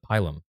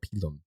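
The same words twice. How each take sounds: First: It is said with an English pronunciation. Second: It is said with a Latin pronunciation.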